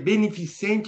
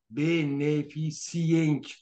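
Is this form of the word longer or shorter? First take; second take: shorter; longer. First: The word is said in its shorter form. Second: The word is said in its longer form. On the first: The speaker calls it right. "beneficente é menorzinha" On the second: The speaker calls it wrong. "Um pouquinho do que beneficente"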